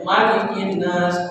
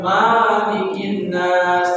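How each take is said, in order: First: The first vowel of Malikin is kept short. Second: The first vowel of Malikin is held long. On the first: The speaker calls it right. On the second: The speaker calls it wrong.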